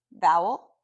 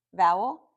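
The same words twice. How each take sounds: The two takes are said the same way.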